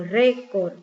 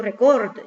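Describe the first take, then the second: First: Récord stressed on RÉ; stress on first syllable. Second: Record stressed on COR, the wrong way; stress on last syllable. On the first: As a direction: punch the first syllable of récord, let the second drop. (récord, llano, con fuerza en «ré») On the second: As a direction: push the weight onto the end of record. (record, agudo, con fuerza en «cor») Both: Shown as a demonstration. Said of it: "Yo no digo record".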